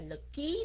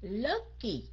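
First: The stress is on the second syllable. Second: The stress is on the first syllable. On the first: The speaker calls it wrong. "Mình đâu có nói là lực ký đó" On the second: The speaker calls it right. "những âm đầu phải không các anh chị?"

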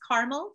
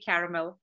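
First: The word is said with two syllables. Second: The word is said with three syllables. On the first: "Red is caramel, so that's two syllables" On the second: "I say caramel, as you can see. But that's from my British English upbringing back in India, because caramel is how they would say it. In three syllables"

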